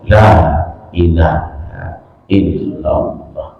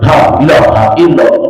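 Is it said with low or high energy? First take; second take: low; high. First: It is said limply, with low energy. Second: It is said spiritedly, with high energy.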